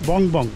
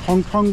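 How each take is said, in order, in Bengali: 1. প্রতিটি syllable b ধ্বনি দিয়ে শুরু হয়। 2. প্রতিটি সিলেবল f ধ্বনি দিয়ে শুরু হয়। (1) "আসলে উচ্চারণটা হবে বং বং" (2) "ফং ফং বললেই ভালো হয়"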